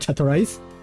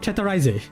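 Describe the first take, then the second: First: The name is said with English-style sounds. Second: The name is said with Japanese-style sounds. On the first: The speaker calls it wrong. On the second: The speaker calls it right.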